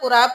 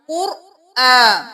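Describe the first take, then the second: First: The middle glottal catch is dropped. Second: The middle glottal catch is clearly pronounced. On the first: The speaker calls it wrong. "इस तरह से हमजा भी छुप जाता है" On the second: The speaker calls it right. "हर लफ्ज को उसके मखरज से निकाल के उसका हक अदा कीजिए"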